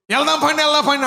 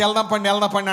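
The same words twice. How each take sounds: First: వెళ్దాం పండి called higher and much louder; an excited father hurrying the family to church; eager urging. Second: Said in the usual way. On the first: Retold or imitated. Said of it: "అంటున్నాడు". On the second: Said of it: "అంటున్నాడు చర్చికి".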